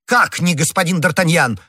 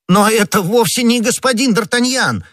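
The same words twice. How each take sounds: First: High, taken-aback outburst; indignant cry. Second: Very high, loud squawk of protest; startled cry. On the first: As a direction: throw the question back, astonished. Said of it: "в свою очередь закричал комиссар". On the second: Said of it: "вскричал Бонасье". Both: A narrator's reading.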